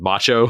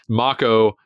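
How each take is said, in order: First: The middle consonant is a ch sound. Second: The middle consonant is a k sound. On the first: "it looks like it's spelled macho"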